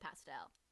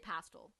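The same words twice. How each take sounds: First: It is said the American way. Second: It is said the British way.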